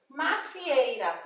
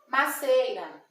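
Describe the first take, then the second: First: The 'i' sound after 'mac' is kept. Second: The 'i' sound after 'mac' is dropped. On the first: The speaker calls it right. "o pé da maçã é uma macieira" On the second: The speaker calls it wrong. "a gente ouve as pessoas falar maceira"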